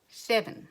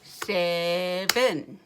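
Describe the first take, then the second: First: Said in the usual way. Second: SEVEN slow and level, two separate syllables; robot talk. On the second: Shown as a demonstration. Teacher clapping syllables with children, slow robot SEVEN in two chunks. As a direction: chunk SEVEN like a robot, one beat per clap. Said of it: "Say it like a robot".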